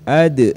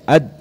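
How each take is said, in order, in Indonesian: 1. Huruf d terakhir dilepas dengan gema pantulan. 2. Huruf d terakhir berhenti datar tanpa gema. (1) "Ad itu pantul ya" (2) "jangan dibaca ad"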